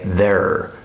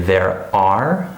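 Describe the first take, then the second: First: The words blend into one syllable with extra R. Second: Both words are said fully and separately. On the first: The speaker calls it right. "I would say there" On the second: The speaker calls it wrong. "I wouldn't say there are"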